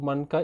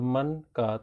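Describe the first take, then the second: First: The two words run together without a break. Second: A short pause separates the two words. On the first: "एक साथ बोलने से अलग अर्थ है" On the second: "थोड़ा सा रुकेंगे तो अलग अर्थ हो जाए"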